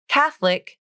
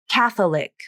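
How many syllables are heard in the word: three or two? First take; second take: two; three. First: The word is said with two syllables. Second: The word is said with three syllables.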